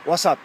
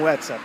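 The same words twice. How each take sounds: First: WhatsApp said "uasap", with the final p dropped; Spanish pronunciation. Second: WhatsApp said the English way, "uáts-ép"; English pronunciation. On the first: Showing viewers how Spaniards say WhatsApp, "uasap". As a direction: say WhatsApp as Spaniards do, "uá-sap", swallowing the p. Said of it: "eles falam". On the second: Contrasting how Brazilians say WhatsApp, English style. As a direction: say WhatsApp as English speakers do, ending on the p. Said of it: "eles não falam WhatsApp". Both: Shown as a demonstration.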